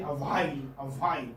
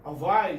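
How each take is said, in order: First: "a while" with an audible h in it; h wrongly sounded. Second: "A while" with no h sound after the w; correct pronunciation. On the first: Retold or imitated. Teacher imitating many speakers' mistake, h wrongly sounded. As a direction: put a puff of h into "while". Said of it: "they tend to pronounce this ha". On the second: Shown as a demonstration. Teacher confirming a student's answer, correct pronunciation. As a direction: say "A while" firmly, the h left silent. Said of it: "you are pronouncing it correctly".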